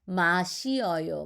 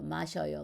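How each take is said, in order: First: It is said slowly with every syllable separate. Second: It is said fast with the vowels merged.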